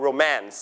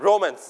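First: Romance with the stress on MANCE; stress on second syllable. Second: Romance with the stress on RO; wrong first-syllable stress. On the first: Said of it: "You stress on the second syllable". (เน้นพยางค์ที่สองของคำว่า romance เป็น โร-แมนซ์) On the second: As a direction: say "romance" as RO-mance, weak second syllable. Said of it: "ไม่อ่าน romance". (เน้นพยางค์แรกของคำว่า romance เป็น โร้-เมินซ์) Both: Shown as a demonstration.

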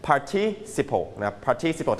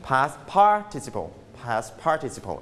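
First: "participle" stressed on the second syllable; British stress. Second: "participle" stressed on the first syllable; American stress. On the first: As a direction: say "participle" as par-TI-ci-ple. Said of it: "British จะเน้นเป็น stress ที่พยางค์ที่สอง". (เน้นพยางค์ที่สองของ "participle" แบบอังกฤษ) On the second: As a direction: say "participle" as PAR-ti-ci-ple. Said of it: "อเมริกันจะเป็น". (เน้นพยางค์แรกของ "participle" แบบอเมริกัน) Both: Shown as a demonstration.

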